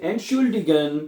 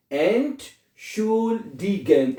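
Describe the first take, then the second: First: Said in the usual way. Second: "Entschuldigen" very slowly, as Ent, schul, di, gen; long pauses between the syllables of "Entschuldigen"; teacher stretching "Entschuldigen" part by part; broken into parts. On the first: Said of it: "बाद में इसको इकट्ठा कर देना". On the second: Shown as a demonstration. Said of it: "ऐसे पढ़ लें".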